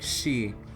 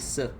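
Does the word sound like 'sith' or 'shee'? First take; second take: shee; sith. First: The word is said with sh and no th. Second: The word is said with an s and th. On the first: The speaker calls it right. "Reads like she" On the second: The speaker calls it wrong. "doesn't read like actually Sith"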